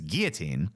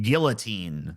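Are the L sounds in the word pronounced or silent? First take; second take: silent; pronounced. First: The L sounds in the word are silent. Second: The L sounds in the word are pronounced. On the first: The speaker calls it right. "because the L's are fucking um, silent" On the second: The speaker calls it wrong. "she probably pronounces it guillotine because that's how they like to say it"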